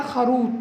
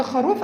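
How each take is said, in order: First: خروط with t replacing the final f of خروف; sound substitution. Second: Said in the usual way. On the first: Shown as a demonstration. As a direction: say خروط, ending on t for f. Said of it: "عنده كده عمل إبدال". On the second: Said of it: "وجاي عند خروف قال خروط".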